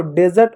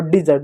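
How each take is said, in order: First: डेजर्ट with an "eh" in the first syllable; contrasted pronunciation. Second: डिजर्ट with an "i" in the first syllable; contrasted pronunciation. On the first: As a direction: say डेजर्ट as "DEH-zert". (डेजर्ट, 'डे' की आवाज़ से) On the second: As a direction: say डिजर्ट as "di-ZERT". (डिजर्ट, 'डि' की आवाज़ से) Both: Shown as a demonstration. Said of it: "दोनों अलग होता है".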